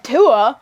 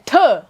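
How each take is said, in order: First: The syllable is said plainly without force. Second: The syllable is spat out with strong force. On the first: The speaker calls it wrong. "you're not saying tua" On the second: The speaker calls it right. "really got to put your emphasis"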